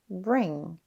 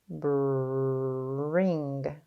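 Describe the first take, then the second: First: The word is said quickly as one unit. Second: The word is stretched slowly, sound by sound. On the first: "Say it fast" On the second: "Tap and stretch"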